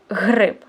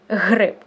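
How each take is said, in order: The two takes are said the same way.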